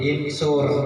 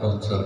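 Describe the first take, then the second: First: The word begins with an 'i' vowel. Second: The word begins with a 'u' vowel. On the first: The speaker calls it wrong. "berharokat kasroh yang menjadi insur" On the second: The speaker calls it right. "menuntut untuk disuk... Di dhammah"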